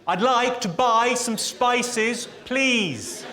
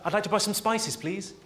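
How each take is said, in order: First: It is said noticeably louder. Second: It is said at a normal, quieter volume.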